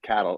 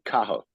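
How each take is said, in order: First: The name is said with a T sound. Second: The name is said without a T sound. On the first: The speaker calls it wrong. "they were told not to pronounce it, so they pronounced it cattle" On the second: The speaker calls it right. "You don't pronounce the T, and it's pronounced Cathal"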